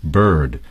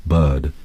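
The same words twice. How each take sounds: First: "bird" with a full R, BURRD; American bird. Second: "bird" with no R, BUHD; English bird. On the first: Canadian guest showing American "bird" with a strong R. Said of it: "like an American would". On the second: Guest contrasting English "bird" with the R dropped. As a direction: drop the R in "bird", English style. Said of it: "an English would say something like bird". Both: Shown as a demonstration.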